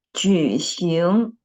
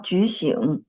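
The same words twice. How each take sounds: First: 举行 drawn out, dipping 举 then rising 行; correct tones on 举行. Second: 举行 with a wrong, non-rising tone on 行. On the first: Teacher correcting a student, 举行 with 行 rising. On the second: Teacher quoting a student's error, wrong tone on 行. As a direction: miss the second-syllable rise in 举行. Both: Shown as a demonstration. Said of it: "tone of the second syllable was wrong".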